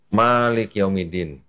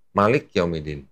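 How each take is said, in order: First: Malik with the first syllable ma drawn out long, slowly. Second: Malik with a short ma, said quickly. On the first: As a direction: stretch the ma in Malik Yaumidin. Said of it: "ma-nya agak panjang". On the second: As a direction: clip the ma in Malik Yaumidin. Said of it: "bacanya cepet". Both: Shown as a demonstration.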